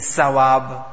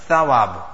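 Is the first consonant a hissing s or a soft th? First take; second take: hissing s; soft th. First: The first consonant is a hissing s sound. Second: The first consonant is a soft th without hiss. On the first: The speaker calls it wrong. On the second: The speaker calls it right.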